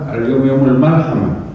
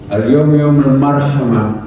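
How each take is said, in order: First: The last word is said with an l sound. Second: The last word is said with an r sound. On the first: "ra-nya dibaca lam" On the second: "hari ini adalah hari berkasih sayang"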